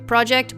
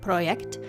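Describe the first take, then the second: First: It is pronounced the English way. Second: It is pronounced the Ukrainian way. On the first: "In English, I guess it would be Project" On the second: "it's from a Ukrainian developer, actually, so I'm sure they would pronounce it Project"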